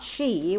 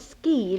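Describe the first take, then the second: First: The word begins with an sh sound. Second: The word begins with an sk sound. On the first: "not she, which is the correct pronunciation" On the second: "you call it ski"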